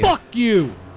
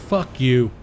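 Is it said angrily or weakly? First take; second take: angrily; weakly. First: It is said angrily, with force. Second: It is said weakly, without much force.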